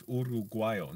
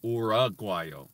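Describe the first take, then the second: First: Uruguayo with crisp oo-roo Spanish vowels; Spanish pronunciation. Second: Uruguayo with an English or-uh start, louder; wrong anglicized pronunciation. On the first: Learner correcting himself, saying Uruguayo the Spanish way. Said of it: "But in Spanish, it's". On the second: Learner showing the wrong way, saying Uruguayo anglicized. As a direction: Uruguayo mispronounced or-ah-gwai-yo. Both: Shown as a demonstration.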